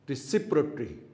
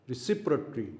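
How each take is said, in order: Both takes have the same delivery.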